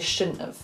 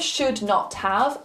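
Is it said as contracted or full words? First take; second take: contracted; full words. First: Should and not are run together as one contraction. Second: All three words are said fully and separately. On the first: "a lot of the time we will say shouldn't have" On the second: "instead of should not have"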